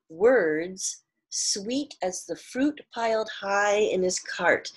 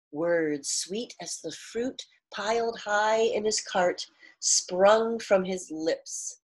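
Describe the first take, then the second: First: "Words sweet as the fruit piled high in his cart" read slowly, leaning on "fruit"; slow emphatic reread. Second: Read-aloud storytelling voice, cart drawn out slowly; story narration. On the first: Shown as a demonstration. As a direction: savour the metaphor, stressing "fruit". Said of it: "He's comparing words to sweet fruit". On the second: A narrator's reading. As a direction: read the line as part of the story. Reading the line within the story.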